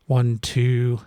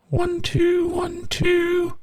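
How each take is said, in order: First: Said in the usual way. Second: High processed plugin voice; pitched way up by the plugin; pitch-shifted voice. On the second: Shown as a demonstration. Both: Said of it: "we can put in the, the key we want".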